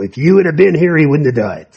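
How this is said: It is said in a reproachful, accusing tone. The listener came too late and is to blame. "Almost like, you're late. Where were you?"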